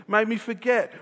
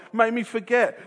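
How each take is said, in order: Both takes have the same delivery.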